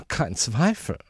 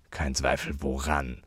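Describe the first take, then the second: First: High, affected lady's voice; certain lady. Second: Quietly menacing question; threatening. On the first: Acted. Lady passing judgement on the uncle, high and certain. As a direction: declare it knowingly in a high voice. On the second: A narrator's reading. Uncle challenging the lady's verdict, quietly threatening. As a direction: keep it down and make it a threat. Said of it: "in recht drohendem Ton".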